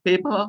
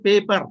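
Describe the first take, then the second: First: "paper" ending in an open "uh"; silent final R. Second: "paper" with its final R sounded; Telugu-style R. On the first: Teacher modelling for students, "paper" without its final R. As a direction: drop the R at the end of "paper". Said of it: "R should be removed from your pronunciation". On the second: Teacher showing students the local way, "paper" with R sounded. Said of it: "he's speaking like Telugu". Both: Shown as a demonstration.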